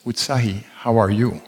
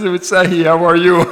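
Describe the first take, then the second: First: Said in the usual way. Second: Quoted through laughter, higher and louder; laughing imitation of the greeting. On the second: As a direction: repeat the greeting while laughing. Retold again, laughing.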